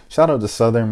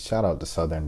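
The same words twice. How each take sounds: First: Louder, higher hype call; hype shout-out. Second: Said in the usual way. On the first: Real, not acted. Shouting out Southern to viewers, loud hype. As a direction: give the team a loud shout-out.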